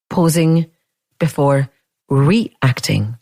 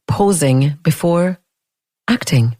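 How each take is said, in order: First: "reacting" with its first syllable picked out and set slightly apart; stress on "reacting". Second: Said in the usual way. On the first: Shown as a demonstration. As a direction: lean on the RE in "reacting", after short pauses. Contrasts reacting with acting.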